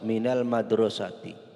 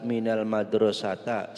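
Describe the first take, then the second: First: The last word ends with an i vowel. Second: The last word ends with an a vowel. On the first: The speaker calls it right. "maka huruf akhirnya dibaca kasroh" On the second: The speaker calls it wrong. "Tidak boleh dibaca"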